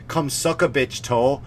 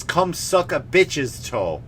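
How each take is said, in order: First: Said in the usual way. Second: Slow, careful "bitch's" with the s sounded; corrected version. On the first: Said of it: "don't say". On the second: Shown as a demonstration. Teaching kids the corrected grammar, slow and careful.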